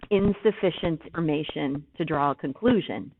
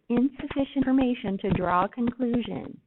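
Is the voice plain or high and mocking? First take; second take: plain; high mocking. First: It is said in a plain, normal voice. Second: It is said in a high, mocking voice.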